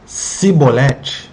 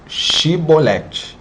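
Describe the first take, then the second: First: The word begins with an s sound. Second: The word begins with an sh sound. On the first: The speaker is from the enemy tribe. The speaker calls it wrong. "com som de S" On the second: The speaker is not from the enemy tribe. The speaker calls it right. "Quem pronunciasse corretamente"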